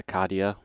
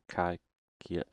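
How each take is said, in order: First: The middle consonant is a 'd' sound. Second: The middle consonant is an 'sh' sound. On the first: The speaker calls it wrong. "I don't know how he is pronounced that" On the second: The speaker calls it right. "anyone who plays Minecraft know this is acacia wood"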